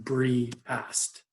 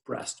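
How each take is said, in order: First: The word is split into two syllables. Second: The word is said as one syllable. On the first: The speaker calls it wrong. "We're not saying bre-ast" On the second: The speaker calls it right. "just breast, all one syllable"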